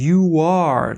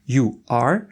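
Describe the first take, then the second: First: The two words are joined by a w-like glide. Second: The two words are said separately with a break. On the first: The speaker calls it right. "czyli takie ły" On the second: The speaker calls it wrong. "nie staramy się tych słów tak sztucznie dzielić"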